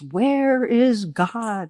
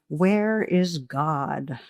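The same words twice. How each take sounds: First: It is said loudest and most sternly. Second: It is said sternly at moderate volume.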